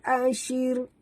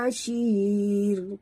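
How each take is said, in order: First: The vowel is kept short. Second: The vowel is drawn out long. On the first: The speaker calls it right. "tak boleh panjang" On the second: The speaker calls it wrong. "Jangan baca panjang"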